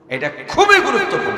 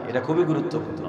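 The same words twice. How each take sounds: First: খুবই punched higher and louder, falling; emphatic repeat. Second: Said in the usual way. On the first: Shown as a demonstration. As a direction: hammer home খুবই.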